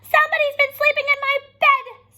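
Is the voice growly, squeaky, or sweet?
squeaky. A high, squeaky Baby Bear voice.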